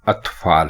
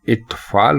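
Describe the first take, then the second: First: The word begins with an 'a' vowel. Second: The word begins with an 'i' vowel. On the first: The speaker calls it right. "दुरुस्त लफ्ज इत्फाल नहीं बल्कि अतफाल है" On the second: The speaker calls it wrong. "इसको अलिफ के नीचे जेर लगाकर यानी इत्फाल कहना ये गलत है"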